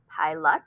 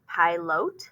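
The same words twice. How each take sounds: First: The unclear vowel is reduced to a schwa. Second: The unclear vowel is said as a long vowel. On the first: "Try it schwa" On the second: "they're going to try it long"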